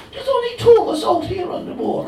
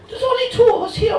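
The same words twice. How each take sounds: First: Even Cork telling; Cork accent, steady. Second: Fast, loud Cork shout; exasperated fast Cork yell; Cork accent, shouted. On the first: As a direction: lay it out in Cork brogue. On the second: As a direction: bark it out fast in Cork brogue. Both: Pretend. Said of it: "delivered in a dodgy Cork accent".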